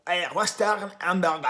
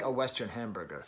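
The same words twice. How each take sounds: First: It is said with a strong French accent. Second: It is said with a plain American accent. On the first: "He was too French" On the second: "oh, he would like"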